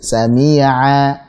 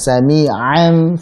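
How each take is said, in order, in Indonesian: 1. Bunyi ain lembut dan rileks. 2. Bunyi ain ditekan keras dan tegang. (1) "Tapi agak dilemasin. Coba dilemesin sedikit" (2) "terlalu ditekan ya. Seperti a'u jangan"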